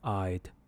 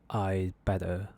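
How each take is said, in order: First: The D sound is clearly pronounced. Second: The D sound is dropped before better. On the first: "if you really want to pronounce it, it will sound like this" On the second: "we don't actually pronounce it. We will simply just say I better"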